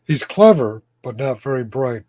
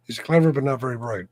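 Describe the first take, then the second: First: "clever" hit loud, then "not very bright" drops; stress on clever. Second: Said in the usual way. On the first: Shown as a demonstration. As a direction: punch "clever" loudly, let "bright" fall. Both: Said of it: "Does that make sense?".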